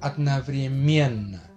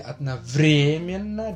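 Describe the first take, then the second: First: The stress is on the fourth syllable. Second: The stress is on the third syllable. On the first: "udarenyanya di suku kata keempat" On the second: "tekanannya di adnavremiena, di vre, ya kan? Di suku kata ketiga"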